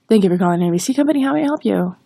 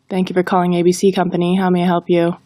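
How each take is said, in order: First: It is rushed and hard to follow. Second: It is read in a flat monotone. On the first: "If we rush through it, it's difficult to understand" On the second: "If we read it in a monotone, it falls flat"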